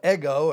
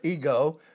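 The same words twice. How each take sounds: First: The word has a non-English pronunciation. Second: The word has the English pronunciation.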